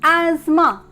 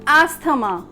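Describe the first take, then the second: First: The middle 'th' sound is silent. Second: The middle 'th' sound is pronounced. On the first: The speaker calls it right. "it must be pronounced as asthma" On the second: The speaker calls it wrong. "how we pronounce it as usually?"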